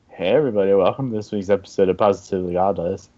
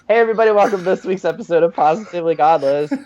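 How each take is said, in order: First: It is said in a flat, lame way. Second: It is said in a lively, energetic way.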